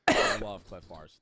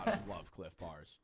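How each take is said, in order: First: Louder and slower, leaning on "love" in "I love Clif Bars"; emphatic declaration. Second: Said in the usual way. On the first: Real, not acted. Streamer declares love of the snack, loud and slow. Repeats his Clif Bar line.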